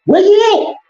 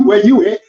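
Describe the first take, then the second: First: Sing-song mocking call, much higher; mocking high-pitched call; high taunting call. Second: Said in the usual way. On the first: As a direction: call out high like hunting for a kid. Repeated taunt.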